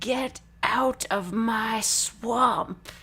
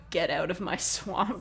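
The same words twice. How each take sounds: First: It is said in a put-on character voice. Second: It is said in the speaker's ordinary voice.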